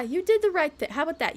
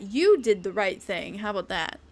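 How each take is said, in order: First: High teasing take. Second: Lower, deadpan repeat of the praise; low teasing take. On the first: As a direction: say it up high like praising a child. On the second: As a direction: drop the voice down for the repeat. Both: Pretend. Teasing the same line twice.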